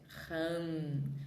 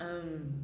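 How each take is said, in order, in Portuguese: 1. Começa com um som de H aspirado. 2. Começa direto na vogal, sem H. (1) "porque é H no início, é Ram" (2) "A gente não fala Am"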